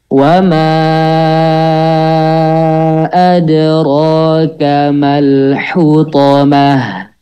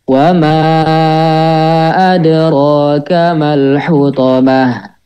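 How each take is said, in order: First: It is recited slowly, with long drawn-out vowels. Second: It is recited at a moderate, medium pace. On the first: "Kita coba yang tahqiq dulu ya. Ana dulu coba" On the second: "lanjut ke tadwir"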